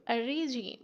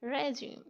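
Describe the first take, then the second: First: "regime" as REE-jeem; mispronounced "regime", first vowel like see; wrong pronunciation. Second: "regime" as reh-jeem, short e; correct pronunciation. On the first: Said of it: "नहीं". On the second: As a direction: say "regime" with a short first vowel. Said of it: "इसकी right pronunciation है". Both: Shown as a demonstration.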